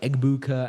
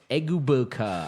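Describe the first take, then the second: First: The name is said smoothly, in one flow. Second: The name is said haltingly, with effort. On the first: The speaker is comfortable with the name. The speaker calls it right. "you're supposed to let it flow" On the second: The speaker is unfamiliar with the name. The speaker calls it wrong. "they like struggle"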